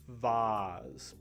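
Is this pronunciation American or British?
British. It is said with a British pronunciation. "I think that's a uh, British way of pronouncing it"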